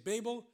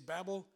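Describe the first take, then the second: First: The word is pronounced the British way. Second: The word is pronounced the American way. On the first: "British say Babel" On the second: "Americans say Babel"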